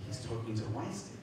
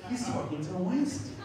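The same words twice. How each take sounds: First: Softer mock accusation; suspicious realization. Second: High, rising imitated alarm; indignant tattling, pitched way up; alarmed accusation. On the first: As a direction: report the discovery under your breath. [name] voiced, first take. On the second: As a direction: raise the alarm to the whole room. [name] voiced, alarm rises.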